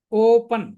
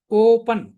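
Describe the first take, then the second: First: ఓపెన్ again with the ఓ held long, louder; drawn-out o in ఓపెన్ for the class; long vowel demo. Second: ఓపెన్ with the ఓ stretched and louder; teacher stretching the o in ఓపెన్; long vowel demo. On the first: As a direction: repeat ఓపెన్ stretching the o. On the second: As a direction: hold the opening o of ఓపెన్. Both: Shown as a demonstration. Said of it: "కొద్ది దీర్ఘంగా పలికాం చూడండి".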